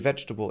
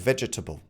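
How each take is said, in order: First: The word is said with a syllable dropped. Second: The word is said with every syllable in full. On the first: "that is the most common pronunciation" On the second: "A lot of my learners uh, might say"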